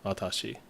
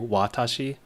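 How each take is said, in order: First: The opening W is pronounced soft and light. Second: The opening W is pronounced hard and strong. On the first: The speaker calls it right. "it's actually softer" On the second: The speaker calls it wrong. "instead of just a hard W"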